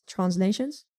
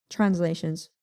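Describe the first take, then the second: First: Said in the usual way. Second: "translations" in a European accent; playful European accent. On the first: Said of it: "Here's my European accent". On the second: Shown as a demonstration. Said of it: "Here's my European accent, guys".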